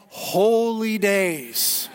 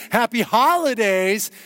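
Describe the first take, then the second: First: "holy days" stretched slowly into two words; stress on holy days. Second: Said in the usual way. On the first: Shown as a demonstration. Preacher correcting someone's happy holidays, drawn-out "holy days". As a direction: answer with a long, weighty "holy days". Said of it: "the genesis of that word is holy days". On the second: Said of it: "next time someone says".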